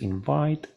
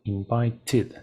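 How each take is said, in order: First: Said in the usual way. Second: "invited" slowly with an added "tid"; ED as extra syllable. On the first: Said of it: "pero invited". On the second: Shown as a demonstration. Teacher contrasting it with the base verb, clear ED syllable. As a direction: stretch "invited" and sound its third syllable. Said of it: "entonces invite".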